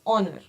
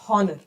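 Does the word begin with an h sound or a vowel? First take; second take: vowel; h sound. First: The word begins directly with a vowel sound. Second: The word begins with an audible h sound. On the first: The speaker calls it right. "H is silent here" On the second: The speaker calls it wrong. "We never say it as honor"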